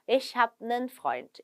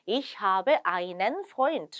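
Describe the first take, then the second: First: The article is shortened to nen. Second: The article is said in full as einen.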